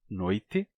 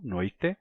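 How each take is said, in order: First: The word ends with an i vowel sound. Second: The word ends with an e vowel sound. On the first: "como é o meu caso, com I" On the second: "com E final"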